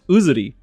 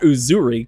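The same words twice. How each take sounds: First: The R is pronounced like a Japanese R. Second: The R is pronounced like an English R. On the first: The speaker calls it right. "It's Uzuri" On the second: The speaker calls it wrong. "You don't say an R like that in Jap"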